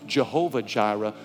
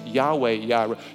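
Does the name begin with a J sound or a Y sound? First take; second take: J sound; Y sound. First: The name begins with a J sound. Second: The name begins with a Y sound. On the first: This is the familiar English form of the name. "We call it Jehovah Jireh" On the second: This is the original Hebrew form of the name. "The Hebrew language doesn't pronounce the J's"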